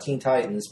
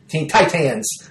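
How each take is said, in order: First: Teen is said in the ordinary way. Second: Teen is said with a biting, clipped sound. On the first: The speaker calls it right. "not Teen Titans" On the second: The speaker calls it wrong. "like I'm biting while I'm saying it"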